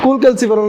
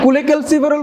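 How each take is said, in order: First: The opening part is one short syllable. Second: The opening part has an extra vowel syllable. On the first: The speaker calls it right. "ना" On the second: The speaker calls it wrong. "बोलेगे तो खत्म है"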